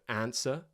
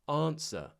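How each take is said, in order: First: The vowel is a flat, front a sound. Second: The vowel is a long, broad ah sound.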